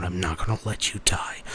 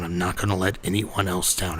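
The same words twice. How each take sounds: First: Unvoiced whisper, rising at the end; a whispered inner promise to save them; whispered vow. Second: Said in the usual way. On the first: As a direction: breathe the promise as a desperate whisper.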